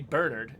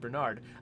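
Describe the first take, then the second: First: The name is said in a British way. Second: The name is said in an American way. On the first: "British people pronounce the name Bernard differently. They say" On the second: "instead of"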